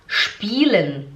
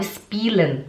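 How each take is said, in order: First: Spielen said slowly with a clear sh, shpielen; correct German sch. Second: Spielen with a plain s, spee-lan; student's wrong s. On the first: Shown as a demonstration. Teacher shows the correct German sch in spielen. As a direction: spielen with the German sch sound, shpee-len. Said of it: "no S C H". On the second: Retold or imitated. Teacher imitates her student's plain s in spielen. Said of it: "ela falava spielen".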